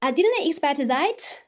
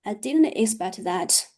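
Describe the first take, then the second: First: Higher, surprised-sounding line; raised pitch. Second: Lower, disappointed line; lowered pitch. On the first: Teacher showing high pitch to audience, surprised. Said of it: "if I raise my pitch". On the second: Teacher showing low pitch to audience, disappointed. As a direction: drop the pitch, sound let down. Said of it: "what if I lower my pitch". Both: Shown as a demonstration.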